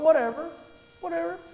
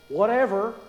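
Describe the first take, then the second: First: It is said in an easygoing, agreeable tone. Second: It is said in a curt, dismissive tone. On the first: Any choice is acceptable. "whatever, that's fine, whatever you want" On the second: What was said is not worth caring about. "you better duck"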